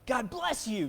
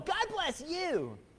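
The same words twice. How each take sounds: First: It is said in a plain, small way. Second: It is said in a big, bold way.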